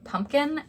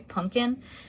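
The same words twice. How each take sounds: First: The word is said with its standard pronunciation. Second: The word is said with a childlike pronunciation. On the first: Adults say it this way. "instead of" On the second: Small children say it this way. "little kids tend to say"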